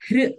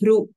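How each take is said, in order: First: The syllable ends without a u vowel. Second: The syllable ends with a clear u vowel. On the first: The speaker calls it right. "it should not be hru" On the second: The speaker calls it wrong. "it should not be hru"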